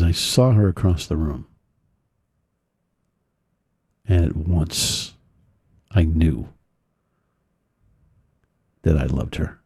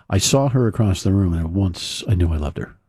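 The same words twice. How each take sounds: First: Lower, drawn out, long pauses between phrases; slow reading with long pauses. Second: Said in the usual way. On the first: Retold or imitated. The kid rereading his poem for Eddie, slow with long pauses. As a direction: let each phrase land before the next. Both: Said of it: "Now I'll read it with the".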